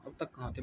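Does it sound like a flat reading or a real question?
flat reading. It is read flatly, not sounding like a question. The sentence is only being read out. The speaker calls it wrong. "Question थोड़ी ना पूछ रहा हूँ, ... बस मैंने sentence पढ़ा है"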